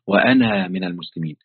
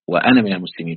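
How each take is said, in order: First: The final vowel of 'ana' is long. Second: The final vowel of 'ana' is short. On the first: The speaker calls it wrong. "فأنا كأني سمعتها" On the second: The speaker calls it right. "يعني الألف لا تنطق"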